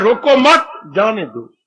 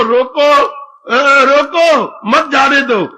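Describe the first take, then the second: First: "रोको मत" together, then "जाने दो" dropping away; मत joined to रोको. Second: Higher, slow, stretched "रोको", pause, "मत जाने दो"; pause after रोको. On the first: Father twists it into letting him go, मत joined to रोको. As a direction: put the break after मत, let जाने दो fall. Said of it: "वो मत उधर लगा रहा है". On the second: Daughter wants him stopped, pause after रोको. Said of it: "और वो कह रही है". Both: Acted.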